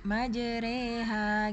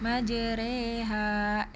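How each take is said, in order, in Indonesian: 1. Vokal setelah r adalah e tipis. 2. Vokal setelah r adalah e tipis.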